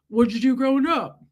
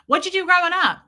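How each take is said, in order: First: It is said in a put-on deep male voice. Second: It is said in her ordinary natural voice.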